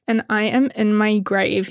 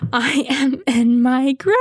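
First: Said in the usual way. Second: Slow, laughing despair; drawn out through laughter; mock-dying of embarrassment while laughing; laughing, dramatic. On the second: Real, not acted.

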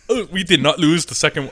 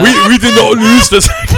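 First: Lightly put-on shitty German accent; German-accented mock defiance; bad German accent. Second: High, loud hammed-up German accent; indignant mock German, pitched up and loud; bad German accent. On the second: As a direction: push the shitty German accent way over the top. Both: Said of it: "That's my shitty German".

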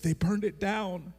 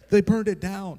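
First: Higher, slow, teary mock sob; imitating crying wife. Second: Higher, louder mock wail; imitating wailing wife. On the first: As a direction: play his heartbroken wife blurting the news through tears. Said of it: "And she's like / bawling her eyes out". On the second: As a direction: cry it out like the heartbroken wife. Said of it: "bawling her eyes out".

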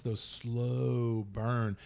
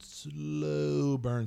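First: "slow" stretched way out; drawn-out SLOW. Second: "slow" held long and higher; exaggeratedly elongated "slow"; drawn-out SLOW. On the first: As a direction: drag the word "slow" to mimic slowness. Drawing out slow to mimic it. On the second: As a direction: stretch "slow" out even more for emphasis. Repeats, stretching slow for emphasis. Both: Shown as a demonstration.

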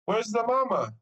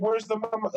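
First: Imitating the cleaning lady. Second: Higher voice, her broken English; imitating the cleaning lady. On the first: Cleaning lady repeating her question to the dad, higher imitated voice. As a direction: mimic her with more emphasis, pitched up. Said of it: "she doesn't speak very good English". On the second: Cleaning lady asking the dad where the mother is, imitated higher voice. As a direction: mimic the kind Spanish-speaking cleaner. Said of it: "She's a little Spanish woman".

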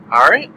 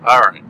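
First: Rising question tune on "All right?", pitch going up at the end. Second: Falling final tune on "All right.", dropping low and settled; firm all right. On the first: Questioning check, then settling. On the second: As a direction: close "All right." with a firm downward fall. Settles the topic firmly. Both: Real, not acted.

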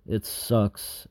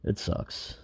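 First: Said in the usual way. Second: Whispered. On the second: Real, not acted. Weary despair, voice drops away.

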